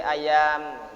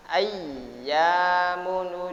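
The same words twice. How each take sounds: First: Ayam said lightly with a single y, no doubling; the forbidden flat ayam without stress; wrong pronunciation. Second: Ayyamun with a pressed, held double yy, slow and louder; doubled y stressed. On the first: Teacher showing students the wrong reading, light single y. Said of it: "Tidak boleh ayam". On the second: Teacher showing students the correct doubled yy, pressed and slow. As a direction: lean hard on the yy of Ayyamun. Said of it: "gitu caranya". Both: Shown as a demonstration.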